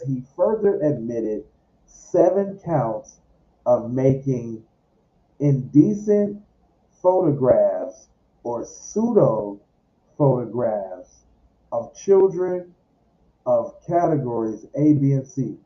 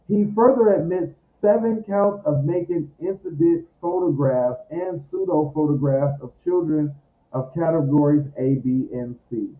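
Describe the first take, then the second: First: It is read slowly. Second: It is read at normal speed.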